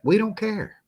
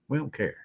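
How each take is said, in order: First: High-pitched, insistent brush-off; emphatic dismissal. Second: Dropped softer, an offhand brush-off; softly dismissive, falling at the end; quiet dismissal. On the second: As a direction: let it fall away softly. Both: Real, not acted. Repeats dismissal two ways.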